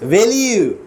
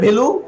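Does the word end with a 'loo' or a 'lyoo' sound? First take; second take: lyoo; loo. First: The word ends in a 'lyoo' sound with glide. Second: The word ends in a plain 'loo' sound. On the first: The speaker calls it right. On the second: The speaker calls it wrong. "ইংলিশে ভ্যালু না কিন্তু"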